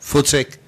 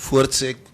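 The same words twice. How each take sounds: The two takes are said the same way.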